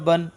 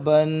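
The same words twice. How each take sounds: First: The vowel is said short and quick. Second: The vowel is drawn out long. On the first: The speaker calls it right. "बल्कि जल्दी पढ़ना है" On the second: The speaker calls it wrong. "इसको खींचना नहीं है, ... ऐसे नहीं पढ़ना है"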